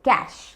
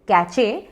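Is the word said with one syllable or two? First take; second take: one; two. First: It has one syllable ending in sh. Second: It has two syllables with a ch sound. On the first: The speaker calls it right. "Correct pronunciation है कैश" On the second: The speaker calls it wrong. "Spelling है सी ए C H E"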